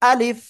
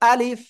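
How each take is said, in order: No difference in how they are said.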